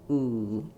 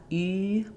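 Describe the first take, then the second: First: The vowel is made with the tongue back. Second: The vowel is fronted, like German ü. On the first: The speaker calls it right. "but ooh, ... my tongue is further back" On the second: The speaker calls it wrong. "Not U"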